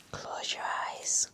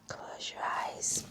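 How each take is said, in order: Both takes have the same delivery.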